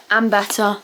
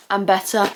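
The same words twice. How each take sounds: The two takes are said the same way.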